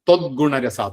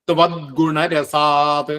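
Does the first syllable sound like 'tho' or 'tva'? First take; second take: tho; tva. First: The first syllable is slurred to sound like tho. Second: The first syllable is said clearly as tva. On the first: The speaker calls it wrong. "അത് തെറ്റാണ്" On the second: The speaker calls it right. "അങ്ങനെ തന്നെ ചെല്ലണം"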